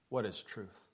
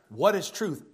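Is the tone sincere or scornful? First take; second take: scornful; sincere. First: It sounds like a dismissive, scornful brush-off. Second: It sounds like a sincere, curious question.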